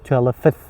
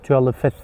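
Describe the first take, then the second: Both takes have the same delivery.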